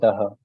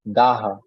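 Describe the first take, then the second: First: The vowel 'a' is kept short. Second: The vowel 'a' is held long. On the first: The speaker calls it wrong. "A is little short" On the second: The speaker calls it right. "A will be little prolonged"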